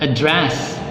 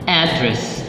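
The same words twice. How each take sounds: First: The stress is on the second syllable. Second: The stress is on the first syllable. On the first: It is used as a verb. "second syllable stress used as a verb" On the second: It is used as a noun. "the nouns"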